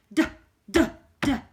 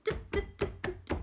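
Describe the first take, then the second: First: Loud stomping "Duh" sounds; big heavy stomps, much louder; large dinosaur sound. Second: Tiny whispered "Duh" sounds, higher; little unvoiced stomps; smaller baby sound. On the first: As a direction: boom out "Duh, duh, duh" like a huge dinosaur. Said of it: "you make a large sound". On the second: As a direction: breathe out "Duh" like a baby dinosaur. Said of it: "you're gonna make a smaller sound". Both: Shown as a demonstration.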